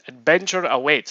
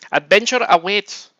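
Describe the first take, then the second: First: It is said in the speaker's plain accent. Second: It is said in a Filipino accent.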